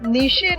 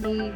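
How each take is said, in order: First: The word ends with a ch sound. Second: The word ends on the vowel without ch. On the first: The speaker calls it wrong. "નીચે નથી આ" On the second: The speaker calls it right. "ને કહીએ છીએ ની"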